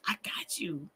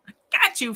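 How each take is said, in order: First: Soft whispered promise; hushed reassurance. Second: High, voiced, punchy promise; playful reassurance. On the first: Pretend. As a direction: whisper it like a secret pact. Playful reassurance, first take hushed. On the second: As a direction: sing out "got" with playful force. Playful reassurance, repeated out loud.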